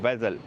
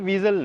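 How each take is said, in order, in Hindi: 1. पहला स्वर छोटी 'eh' ध्वनि है। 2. पहला स्वर लंबी 'ee' ध्वनि है। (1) "इसकी करेक्ट प्रोनाउंसिएशन जो है वो वेज़ल होगी" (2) "बहुत सारे लोग इसको वीज़ल कहते हैं। सो ये वीज़ल नहीं है"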